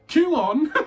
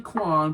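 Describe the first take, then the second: First: The name is said as two syllables. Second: The name is said as one syllable. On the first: The speaker calls it right. "It's like uh, Q-on" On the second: The speaker calls it wrong. "I say Quan, but I've been told many times it's not"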